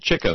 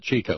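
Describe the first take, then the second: First: The first vowel is short, as in 'chick'. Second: The first vowel is long, as in 'cheek'. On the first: This is how the documentary said the name. "they pronounced it Chico" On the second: This is the expected way to say the name. "not Chico"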